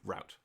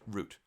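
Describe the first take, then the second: First: Route is said with an American pronunciation. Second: Route is said with a non-American pronunciation.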